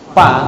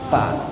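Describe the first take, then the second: First: The sound starts with both lips closing together. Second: The sound starts with upper teeth on lower lip. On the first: The speaker calls it wrong. "bibirnya ber, berjumpa gitu kan. Pa, salah" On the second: The speaker calls it right. "gigi seri ini yang dua ini ditempelkan"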